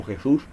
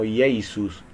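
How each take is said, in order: First: Said in the usual way. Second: "Jesus" said as "Iesus", starting with an ee-yeh glide, no J sound; teaching the Greek sound "Jesus" with no J; old Greek-style name. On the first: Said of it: "se traduce como Jesus". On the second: Shown as a demonstration. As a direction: say "Jesus" slowly as ee-eh-SOOS, no rasped J. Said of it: "porque no existía la J".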